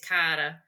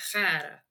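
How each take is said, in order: First: It starts with a hard k sound. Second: It starts with a throaty breathy sound. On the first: The person is being talked about. "if you're speaking about me, it's Cara" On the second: The person is being spoken to directly. "If you're like saying good morning, Cara, to me, it'd be"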